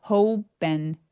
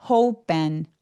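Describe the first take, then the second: The two takes are said the same way.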